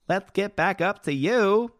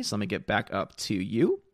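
First: Higher, slow, teasing call to the chat; drawn-out sing-song call; playful sing-song. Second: Said in the usual way. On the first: Pretend. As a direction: coax the scrolling chat back like a lost pet. Chat scrolled away, calls after it.

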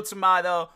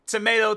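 First: "tomato" said tom-AH-to; "tomato" with a broad ah vowel. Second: "Tomato" said tom-AY-to, louder; "Tomato" with an ay vowel. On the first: Speaker shrugging off two ways of saying it, tom-AH-to. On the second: Speaker shrugging off two ways of saying it, tom-AY-to. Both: Shown as a demonstration.

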